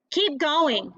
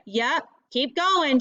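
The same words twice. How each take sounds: First: Said in the usual way. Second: Slow, drawn-out call. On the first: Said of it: "she says". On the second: Acted. Tressa calling to Delcy far down the beach, slow and teasing. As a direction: stretch it out teasingly. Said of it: "she calls".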